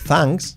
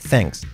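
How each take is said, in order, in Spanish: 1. La vocal es una a abierta. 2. La vocal suena casi como una e. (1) "Fijaos que no es thanks" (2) "Es casi una E prácticamente"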